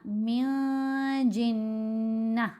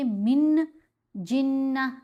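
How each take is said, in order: First: The n sound is hidden in the nose. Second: The n sound is pronounced clearly. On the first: The speaker calls it right. "नाक में छुपा कर पढ़ना है" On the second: The speaker calls it wrong. "अब हमने मिन जिन्ना नहीं पढ़ा"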